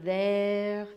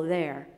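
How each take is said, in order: First: "there" stretched long in a French accent; prolonged syllable. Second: Said in the usual way. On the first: Shown as a demonstration. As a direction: draw out "there" slowly, French style. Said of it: "he did prolong that syllable. It sounded like". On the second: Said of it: "prolonged the syllable".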